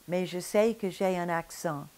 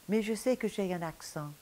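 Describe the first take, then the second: Both takes have the same delivery.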